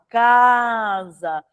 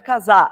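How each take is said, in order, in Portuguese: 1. A tônica está na primeira sílaba. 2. A tônica está na última sílaba. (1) "Paroxítona, ... é casa" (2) "não é casar"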